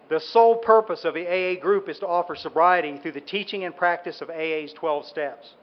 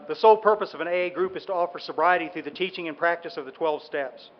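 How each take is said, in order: First: It is read slowly and deliberately. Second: It is read at a normal pace.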